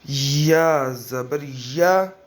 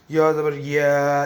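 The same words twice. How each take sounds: First: या ज़बर या slow and clear, with a short clean "a" on each या; careful correct या ज़बर या; correct model reading. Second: या ज़बर या ending in a "ye" sound instead of a clean "ya"; faulty makhraj on या ज़बर या; wrong articulation demo. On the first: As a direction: model the right recitation slowly. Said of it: "ऐसे ही जैसे मैं पढ़ूँ". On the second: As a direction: demonstrate the mistaken या as ये. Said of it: "ये ऐसे नहीं पढ़ना". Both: Shown as a demonstration.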